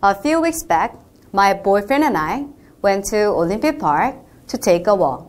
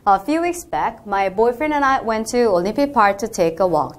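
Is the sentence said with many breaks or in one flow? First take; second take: many breaks; one flow. First: It is said in short, broken chunks. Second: It is said in long, connected breaths.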